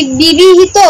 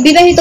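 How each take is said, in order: First: বিবাহিত read as written, "bibihit"; বিবাহিত with the middle vowel as "i"; misspelled word read out. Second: বিবাহিত said properly as "bi-ba-hito"; correct word. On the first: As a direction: sound out the typo বিবাহিত as "bi-bi-hit". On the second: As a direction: say বিবাহিত with a clear "ba" in the middle. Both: Shown as a demonstration. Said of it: "বিবাহিত বলতে চাচ্ছে ভাইয়া".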